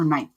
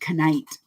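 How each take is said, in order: First: The word starts with an N sound, K silent. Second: The word starts with a K sound before N.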